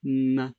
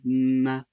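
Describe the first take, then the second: The two takes are said the same way.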